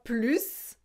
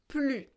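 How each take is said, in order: First: The final S sound is pronounced. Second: The final S sound is silent. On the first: The speaker calls it wrong. "c'est pas plus" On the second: The speaker calls it right. "on ne prononce pas le S"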